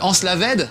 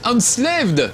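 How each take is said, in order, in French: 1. Il se prononce avec un fort accent français. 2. Il se prononce à l'anglaise.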